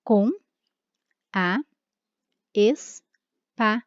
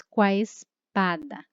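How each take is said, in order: First: "com" "a" "espada" spoken slowly as three separate words, with full pauses between; Portuguese: "com", "a", "espada" ditos devagar e separados, com pausas; separated syllables. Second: "qua espada" with "com a" merged into one syllable "qua", said slowly; Portuguese: elisão, "com a" vira "qua" em "qua espada", devagar; elided vowels. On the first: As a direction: split "com a espada" apart word by word, the grammatical way. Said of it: "nós teríamos a divisão".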